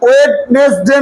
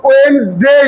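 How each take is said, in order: First: ওয়েডনেসডে as slow "wed-nes-de", every letter sounded; wrong spelled-out reading. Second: ওয়েডনেসডে in two syllables, "wens-dey"; corrected "wensdey". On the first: Teacher showing the class the mistake, slow "wed-nes-de" for ওয়েডনেসডে. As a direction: break ওয়েডনেসডে into three slow syllables. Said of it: "না". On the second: Teacher modelling for pupils, ওয়েডনেসডে as "wens-dey". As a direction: drop the first D in ওয়েডনেসডে and glide the end. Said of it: "বলো". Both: Shown as a demonstration.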